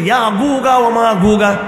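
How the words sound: The jim sound is pronounced as a hard g. "মিশরিরা জিমকে বলা গাইন"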